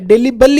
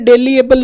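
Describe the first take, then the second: First: It is said with three syllables, de-li-ble. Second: It is said with four syllables, de-li-a-ble. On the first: The speaker calls it right. "डेलीबल ही है" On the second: The speaker calls it wrong. "ये डेलीएबल नहीं है"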